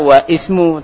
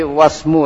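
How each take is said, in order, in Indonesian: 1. Vokal sebelum s dibaca terpisah. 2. Vokal sebelum s dihilangkan sama sekali. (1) "Enggak baca wa ismu" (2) "tapi wasmu langsung bacanya"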